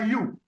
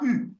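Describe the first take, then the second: First: It is said with a y-glide, like 'you'. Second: It is a rounded front vowel, French u. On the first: This is the English reading of the letter. "En anglais, on prononce ça you" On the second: This is the French reading of the letter. "en français, on prononce ça U"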